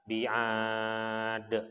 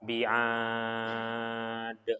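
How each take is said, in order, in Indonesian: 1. Vokal panjang ditahan selama empat harakat. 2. Vokal panjang ditahan selama enam harakat. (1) "Kalau misalkan empat harokat" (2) "Kalau enam harokat"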